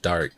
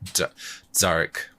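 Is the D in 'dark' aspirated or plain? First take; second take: plain; aspirated. First: The D is plain, without a puff of air. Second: The D is aspirated with a puff of air. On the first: "instead of like dark" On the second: "making them more aspirated"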